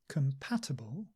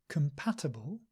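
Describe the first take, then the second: Both takes have the same delivery.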